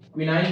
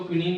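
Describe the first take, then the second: First: The last syllable rhymes with 'nine'. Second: The last syllable rhymes with 'seen'. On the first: "क्विनाइन बोल सकते हो" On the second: "क्विनीन बोल सकते हो"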